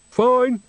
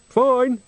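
First: Put-on much higher, chirpy old woman; Nanny Ogg voice. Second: Much higher, a second quick chirp; Nanny Ogg voice. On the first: Nanny answering Granny from the bushes, high and bright. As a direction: squeak it out cheerily from behind a bush. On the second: Acted. Nanny repeating her answer from the bushes, high and bright. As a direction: echo the first word, same high voice.

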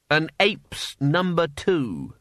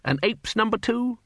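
First: Dry quip. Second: Self-pleased repeat. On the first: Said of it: "I say, did anyone notice that?". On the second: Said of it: "Rather clever, I thought". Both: Acted.

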